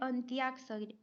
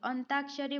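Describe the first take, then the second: First: It is said 'antyakshari' with a 'y' sound. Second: It is said 'antakshari' with no 'y' sound. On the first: The speaker calls it right. "लेकिन सही क्या है" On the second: The speaker calls it wrong. "हम लोग बोलते हैं अंताक्षरी खेलेंगे"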